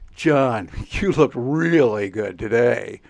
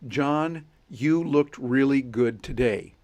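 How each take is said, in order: First: It is said in a joking, sarcastic tone. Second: It is said in a plain, sincere tone. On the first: The opposite of the words is meant. "You know I mean the exact opposite of what I'm saying" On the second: The compliment is meant literally. "That's the text"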